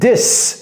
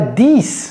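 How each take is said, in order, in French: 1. La voyelle est brève et relâchée. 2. La voyelle est longue, comme dans peak. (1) "c'est this" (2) "C'est pas this"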